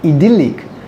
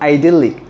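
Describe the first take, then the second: First: It is said with a British pronunciation. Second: It is said with an American pronunciation. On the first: "British people pronounce it as a idyllic" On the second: "the American people pronounce it as a idyllic"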